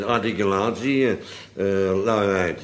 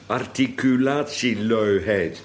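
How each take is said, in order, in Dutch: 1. Klanken worden slordig en door de neus gevormd, met weinig mondbeweging. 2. Elke klank wordt duidelijk en precies uitgesproken. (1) "sommigen praten altijd zo, en die zijn nauwelijks verstaanbaar" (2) "Moet het ook netjes uitspreken dan"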